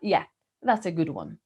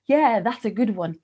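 First: The pitch falls at the end, sounding dismissive. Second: The pitch rises at the end, sounding enthusiastic. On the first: The attempt to fool the speaker failed. "Intonacja w wersji drugiej... Idzie w dół i zmienia nam się znaczenie" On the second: The idea is sincerely praised. "Intonacja w pierwszej, entuzjastycznej wersji idzie w górę na końcu"

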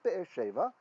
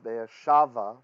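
First: The last word's first vowel sounds like 'e'. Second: The last word's first vowel sounds like 'a'. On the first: This is the ordinary form of the name. "So it is Be'er Sheva" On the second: The word stands at a pause in the clause. "it becomes Be'er Shava when it's in pause"

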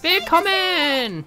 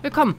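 First: The word is stretched out slowly. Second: The word is said at a normal length. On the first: "Die langgezogene Version?" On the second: "Die normale Version?"

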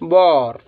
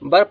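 First: The vowel is an open 'aw' sound. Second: The vowel is a short 'uh' sound. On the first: The speaker calls it right. "इसको हम क्या पढ़ेंगे" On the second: The speaker calls it wrong. "बर पढ़ते हैं, लेकिन इसकी ध्वनि ये गलत है"

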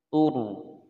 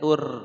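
First: The r is pronounced heavy and full. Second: The r is pronounced light and thin. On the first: The speaker calls it right. "maka dibaca tebal" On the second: The speaker calls it wrong. "Tidak boleh"

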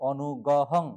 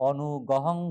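Both takes have the same delivery.

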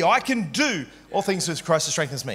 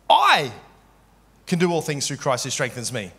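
First: The stress is on the word all. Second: The stress is on the word I.

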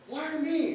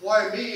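First: It sounds grateful and amazed at being chosen. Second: It sounds self-pitying, like a victim complaining.

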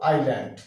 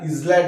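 First: The s is silent before the l. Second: The s is pronounced before the l. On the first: The speaker calls it right. "কি বলবো? আইল্যান্ড" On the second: The speaker calls it wrong. "এটা ইসল্যান্ড আমরা বলবো না"

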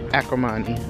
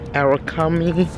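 First: The word is pronounced like 'Acrimony'. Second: The word is pronounced like 'Arakami'. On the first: The speaker calls it right. "Let me start pronouncing this thing right" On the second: The speaker calls it wrong. "I said it completely wrong first time"

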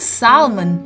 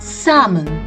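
First: The L is clearly sounded. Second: The L is silent. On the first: The speaker calls it wrong. "Not salmon, which we commonly mispronounce it as" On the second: The speaker calls it right. "the L to this word is silent"

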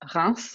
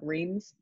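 First: The name is pronounced with French sounds. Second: The name is pronounced with English sounds. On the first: "It's a very French name" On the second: "if you read it in an English way"

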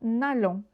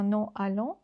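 First: The vowel of ne is dropped and linked. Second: The vowel of ne is pronounced separately. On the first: The speaker calls it right. "автоматично ми кажемо «нальон»" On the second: The speaker calls it wrong. "ми не кажемо «ну альон»"

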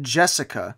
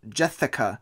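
First: The middle consonant is a plain 's' sound. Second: The middle consonant is a lisped 'th' sound. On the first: This is how the character's name is said. "her name is said Jessica" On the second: This is how the title is spelled and said. "I'm not just doing my lisp"

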